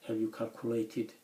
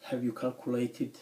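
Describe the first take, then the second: No difference in how they are said.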